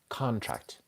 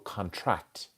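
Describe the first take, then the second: First: The stress is on the first syllable. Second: The stress is on the second syllable. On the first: It names an agreement or deal. "With the deal, contract. So the more emphasis on the first one" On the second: It means to get smaller. "to get smaller we put the emphasis on to contract on the second syllable"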